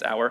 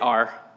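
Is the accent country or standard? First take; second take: standard; country. First: It is said in a standard accent. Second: It is said in a country accent.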